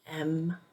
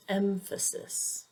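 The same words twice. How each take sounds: First: "emphasis" with the middle syllable stressed, em-FA-sis; "emphasis" broken up, weight on FA. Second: "emphasis" stressed on the first syllable, EM-fuh-sis; "emphasis" as EM-fuh-sis, falling away after EM; correct first-syllable stress. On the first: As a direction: hit the middle of "emphasis", full open FA. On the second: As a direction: say "emphasis" with weight on EM, rest reduced. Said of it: "the correct pronunciation is emphasis". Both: Shown as a demonstration.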